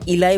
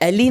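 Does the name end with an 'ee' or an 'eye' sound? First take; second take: eye; ee. First: The name ends with an 'eye' sound. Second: The name ends with an 'ee' sound. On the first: "इलाई बोलता हूँ" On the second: "मैं इसको अभी एली नहीं बोलना चाहता हूँ"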